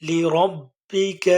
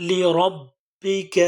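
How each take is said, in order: No difference in how they are said.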